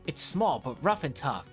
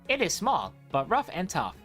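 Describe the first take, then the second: First: It is read in a plain, normal voice. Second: It is read in a put-on narrator voice.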